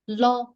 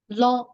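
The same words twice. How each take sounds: Both takes have the same delivery.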